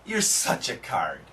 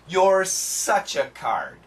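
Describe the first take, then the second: First: It is spoken quickly. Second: It is spoken slowly. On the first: "Now let's say it faster" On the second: "Let's say it slowly together"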